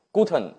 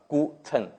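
First: Said in the usual way. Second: "guten" broken into two separate syllables, gu and ten; "guten" as gu, pause, ten; sounding out. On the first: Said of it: "但是你知道". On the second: Shown as a demonstration. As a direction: sound out "guten" slowly with a hard g. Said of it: "G发g".

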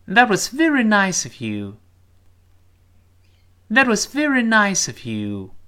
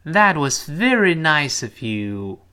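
First: Quicker, louder, higher read; faster reading. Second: Slow, careful model sentence; slow model read. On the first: Teacher speeding up the sentence for pupils to follow. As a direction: speed it up at natural pace. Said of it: "我们读快点". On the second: Teacher reading slowly for the class to repeat. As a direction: read it slowly for pupils to copy. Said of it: "再来一遍". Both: Shown as a demonstration.

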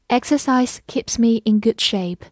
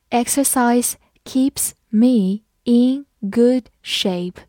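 First: Said in the usual way. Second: Exercise keeps me in good shape said slowly, word by word; slow read-along. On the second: Shown as a demonstration. Teacher reading slowly so the class can follow. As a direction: read it slowly for students to repeat. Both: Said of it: "跟着我慢读一遍".

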